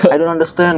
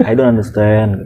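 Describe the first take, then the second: First: Higher, baffled English; a hint of a puzzled guard in English; first plea. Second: Said in the usual way. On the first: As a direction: say it helplessly. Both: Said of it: "gue bilang".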